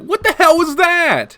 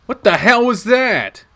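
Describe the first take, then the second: First: What the hell was that, stress on the, much higher and louder; voice climbing higher. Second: Startled, louder What the hell was that, slow; startled demand. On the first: Protagonist's voice cracks higher confronting Shuichi, much higher pitch. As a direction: let the voice jump up high in alarm. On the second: Protagonist confronts Shuichi after the fight, startled demand. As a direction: demand an answer, shaken. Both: Acted. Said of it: "My voice comes out a little higher".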